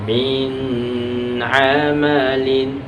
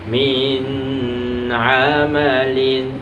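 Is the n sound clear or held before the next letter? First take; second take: held; held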